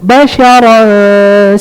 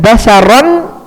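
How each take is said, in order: First: The n is hidden in a held nasal sound. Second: The n is pronounced fully and clearly. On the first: The speaker calls it right. "Karena dia ikhfa, digantung" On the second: The speaker calls it wrong. "Jangan basyaran, enggak boleh"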